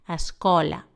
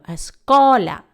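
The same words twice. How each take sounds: First: The word is read with ordinary, even force. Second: The stressed syllable gets strong extra force. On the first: "las mismas palabras las leemos normal" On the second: "Es la que le damos un toque de fuerza extra"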